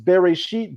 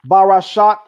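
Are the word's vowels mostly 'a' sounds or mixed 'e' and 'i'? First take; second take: mixed; mostly 'a'. First: The vowels are e, e and i. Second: The vowels are a, a and a. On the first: It means in the beginning. "the Masoretic vocalization" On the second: It means he created six. "let me retranslate"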